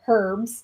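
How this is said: It is said the way non-Americans say it. This sounds like someone from another country. "He says herbs"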